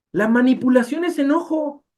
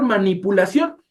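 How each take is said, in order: First: "es" pushed high and falling, a firm claim; stress on es. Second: Said in the usual way. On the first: Shown as a demonstration. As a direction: hit "es" hard: manipulation IS anger.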